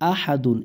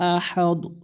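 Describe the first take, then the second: First: The word ends with the full 'dun' ending. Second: The word ends on a bare 'd' sound.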